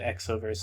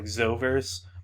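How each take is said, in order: First: The word begins with an 'eks' sound. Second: The word begins with a 'z' sound. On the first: The X stands for 'cross', as in crossover. "I always pronounce it Exoverse in my head" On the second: This is how the spelling suggests it. "it should be pronounced like Zoverse"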